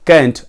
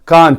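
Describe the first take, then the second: First: The vowel is a short front 'a' sound. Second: The vowel is a long open 'ah' sound. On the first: The speaker calls it right. "उसके pronounce में ये आता है I कैंट" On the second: The speaker calls it wrong. "बहुत सारे लोग बोलते हैं कांट, ... ऐसा नहीं"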